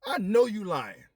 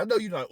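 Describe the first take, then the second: First: Higher, louder, slow disbelief; louder, higher slow disbelieving accusation; incredulous outburst. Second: Higher repeat of the accusation; higher, louder quick disbelief; disbelieving repeat. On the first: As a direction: call out the lie in shock. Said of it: "I'm looking like". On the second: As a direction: say it again, still stunned. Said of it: "I don't think I said it". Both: Retold or imitated.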